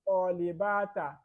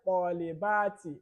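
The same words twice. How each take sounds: First: The word ends with an 'a' vowel. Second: The word ends with an 'i' vowel. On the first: The speaker calls it wrong. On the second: The speaker calls it right. "we say"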